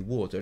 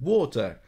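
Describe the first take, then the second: First: The word is said plainly and calmly. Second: The word is said as a sudden exclamation. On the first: It is a simple request for a drink. "And I say water" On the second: The baby is on the way. "if I exclaim the same word"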